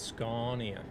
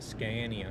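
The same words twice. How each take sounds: First: The name is said the Swedish way. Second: The name is said the common English way. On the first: The speaker calls it right. "it's Scania" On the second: The speaker calls it wrong. "not Scania. A lot of people say Scania"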